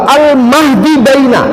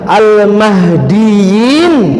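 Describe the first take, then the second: First: The word ends with a separate 'baina' sound. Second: The word ends with a 'yin' sound. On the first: The speaker calls it wrong. "Dia baca ngotot pula al-mahdi baina" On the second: The speaker calls it right. "Kalau yang benar al-mahdiyin"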